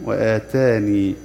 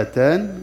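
First: وآتاني with the final ya kept, slow; stop keeping the ya. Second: آتان stopped on the nun, no final ya, said higher; stop without the ya. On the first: Teacher shows stopping on وآتاني with the ya kept, slowly. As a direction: draw out the ending ي of وآتاني. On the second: Teacher shows stopping on آتان without the ya. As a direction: end on a bare nun in آتان. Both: Shown as a demonstration. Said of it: "فيقرأها كذا".

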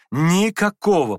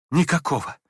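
First: Louder, slower emphatic repeat of никакого; никакого said louder and drawn out; hasty interruption. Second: Said in the usual way. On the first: A narrator's reading. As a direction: cut in, stressing никакого firmly. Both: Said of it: "поспешно перебил князь".

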